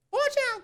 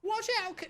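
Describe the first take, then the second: First: High, loud alarmed yell; kid yelling a warning. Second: Put-on a high call from a child; high kid warning. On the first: Acted. Kid yelling a warning to Kuno, high and loud. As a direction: scream the warning this time. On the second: Kid calling a warning to Kuno, high. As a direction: warn a friend in a high voice.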